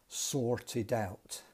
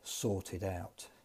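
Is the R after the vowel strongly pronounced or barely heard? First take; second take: strong; barely heard. First: It has a strong Northern Irish R. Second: The R after the vowel is barely heard.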